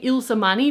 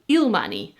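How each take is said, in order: First: The first part sounds like the name Ilse. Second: The first part sounds like the word isle. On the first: "I'm saying Ilse-Mani because Ilse is a common Dutch name" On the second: "she was saying Ilmani because in English, Isle is written as like I L S E"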